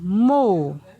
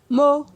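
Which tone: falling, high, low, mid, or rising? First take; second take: falling; mid. First: The syllable is said on a falling tone. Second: The syllable is said on a mid tone. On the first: "Ton descendant" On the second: "Ton moyen"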